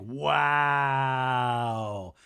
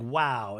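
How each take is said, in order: First: Long, held-out "wow"; mock drunken wow. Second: Said in the usual way. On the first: Danny answers Jesse's walk offer, mock drawn-out wow. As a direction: stretch the one word right out, imitating him.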